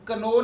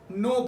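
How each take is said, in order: First: A k sound is heard before the n. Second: No k sound is heard before the n. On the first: The speaker calls it wrong. "इसको हम कनो नहीं पढ़ते" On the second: The speaker calls it right. "नो पढ़ते हैं"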